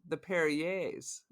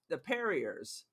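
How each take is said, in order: First: The name is said in a fancy, upscale way. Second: The name is said in a plain, everyday way. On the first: The family changed it to sound more upscale. "as things started getting more bougie in the eighties, the pronunciation became" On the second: This is the family's original pronunciation. "their last name was the Perriers"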